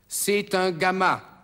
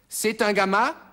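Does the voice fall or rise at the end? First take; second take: falls; rises. First: The voice falls at the end. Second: The voice rises at the end.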